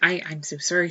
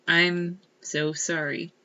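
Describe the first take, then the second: First: The voice is younger and stammering. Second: The voice is flat and steady. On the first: The apology comes from a frightened younger self. "younger, st- stammering" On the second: The apology is a composed outward performance. "not monotone like they're they're saying"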